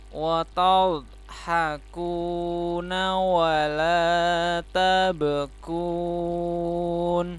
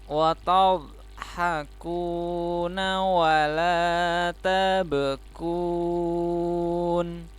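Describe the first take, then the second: No difference in how they are said.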